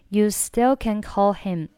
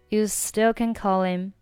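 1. 'call' 和 'him' 分开读。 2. 'h' 不发音，'call' 连到 'him' 上。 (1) "不连就是最简单的call him" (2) "那如果想连在一起读呢……所以是call him call him call him。"

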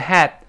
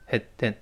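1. 元音是完整的开口音 'a'。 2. 元音弱化成快速的央元音 schwa。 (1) "这个had" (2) "读快变成had，有a 就弱化成had"

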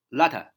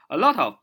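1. 这些词快速连在一起，变成一个弱读的形式。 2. 每个词都分开、完整地说出来。

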